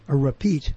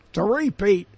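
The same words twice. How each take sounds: First: "repeat" with an unstressed, reduced first syllable; alternative pronunciation of repeat. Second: "repeat" with a long first syllable, REE-peat; regional pronunciation of repeat. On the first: Host weighing how to say it, "repeat" as ruh-PEAT. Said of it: "Is it a repeat or a repeat?". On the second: Host showing a regional variant, "repeat" as REE-peat. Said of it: "how you say it". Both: Shown as a demonstration.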